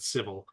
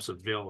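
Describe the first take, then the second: First: The name is said like the word civil. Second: The name is said like the city Seville. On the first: This is how the company itself says the name. The speaker calls it right. "I think they pronounce it civil" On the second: This is a guess from how the name is spelled. The speaker calls it wrong. "I call them Seville because that's the way it looks like it's spelled to me"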